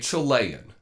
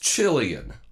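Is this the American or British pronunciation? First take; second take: American; British. First: It is said with an American pronunciation. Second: It is said with a British pronunciation. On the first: The speaker calls it wrong. "Americans say" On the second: The speaker calls it right. "That's how it's said"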